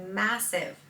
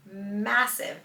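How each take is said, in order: Both takes have the same delivery.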